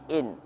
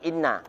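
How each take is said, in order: First: The n is single, light and unstressed. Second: The n is doubled and followed by a vowel. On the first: The speaker calls it right. "dibaca dengan ringan" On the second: The speaker calls it wrong. "nggak dibaca dengan tasdid, bukan inna"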